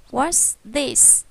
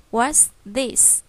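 No difference in how they are said.

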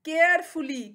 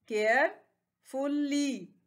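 First: Said in the usual way. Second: carefully very slow, with a pause after care; three drawn-out beats in carefully; split into syllables. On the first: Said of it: "carefully कहते हैं". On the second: Shown as a demonstration. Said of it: "इसके three syllables हैं". (Carefully को तीन हिस्सों में रुककर)

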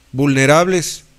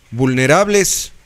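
The two takes are said the same way.

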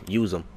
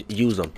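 No difference in how they are said.

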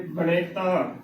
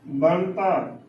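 First: ਬਣੇਤਾ in three syllables, ba-ne-ta; wrongly voiced ਬਣੇਤਾ with added middle vowel; common mispronunciation. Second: ਬਣਤਾ in two syllables, ban-ta, falling; no vowel after the n in ਬਣਤਾ; correct pronunciation. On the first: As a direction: put an e vowel after the n in ਬਣੇਤਾ. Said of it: "ਇਸ ਨੂੰ ਉਚਾਰਨ ਕਰ ਦਿੰਦੀਆਂ ਨੇ". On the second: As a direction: close "ban" straight onto "ta" in ਬਣਤਾ. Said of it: "ਕਿਵੇਂ ਉਚਾਰਨ ਕਰਨਾ ਹੈ". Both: Shown as a demonstration.

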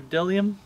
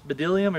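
First: Bdellium as "DELL-ee-um", starting on the d; silent b in bdellium. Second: Bdellium as "buh-DELL-ee-um", with an extra first syllable; b sounded in bdellium. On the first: Preacher offering the other reading, bdellium with a silent b. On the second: Preacher trying out a hard Bible word, bdellium with the b sounded. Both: Shown as a demonstration. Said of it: "bdellium or bdellium".

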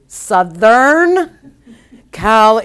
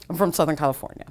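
First: Drawn-out, raised, louder delivery; slow and loud. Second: Said in the usual way. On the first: Retold or imitated. Friend answering the waitress who asks where he's really from, slow and loud. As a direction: spell it out slowly and loudly, imitating an exasperated friend. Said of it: "he's the one that's speaking slow and loud". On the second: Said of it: "he's speaking like me".

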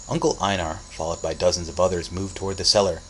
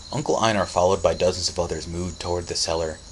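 Both takes have the same delivery.

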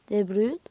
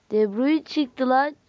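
First: Said in the usual way. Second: Louder, stretching De Bruyne; slow thrilled exclamation; slow excited surprise. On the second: Real, not acted. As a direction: savour the surprise pull.

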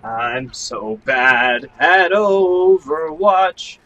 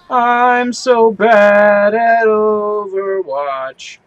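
First: Slow dejected. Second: So drawn out slowly with weight; stress on so. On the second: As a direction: lean on so, slow and sulky. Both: Shown as a demonstration.

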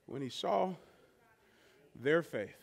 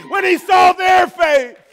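First: Soft and low, barely above a breath; hushed preaching. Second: High, loud and slow, leaning on saw; shouted preaching. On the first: Pastor winding down the sermon, soft and low. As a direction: let it fall quiet after the storm. After "land this plane", whew. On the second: Pastor crying out to the congregation, loud and slow. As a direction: ring it out to the back row. Climax of the sermon list. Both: Acted.

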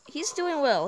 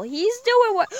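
First: Said in the usual way. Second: Higher and louder cheer for the lion; excited cheer. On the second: Real, not acted.

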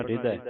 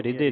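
First: ਹਿਰਦੈ with a wide open "eh" ending; ਹਿਰਦੈ, last vowel open. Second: ਹਿਰਦੈ with a closed "ay" ending; ਹਿਰਦੈ said as hir-day; mistaken e ending. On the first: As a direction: end ਹਿਰਦੈ on a broad ai. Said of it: "ਹਿਰਦੈ ਤੇ ਦਲਾਵਾਂ ਲੱਗੀਆਂ". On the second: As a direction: end ਹਿਰਦੈ on a narrow e. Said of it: "ਹਿਰਦੈ ਨਹੀਂ ਪੜ੍ਹਨਾ". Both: Shown as a demonstration.

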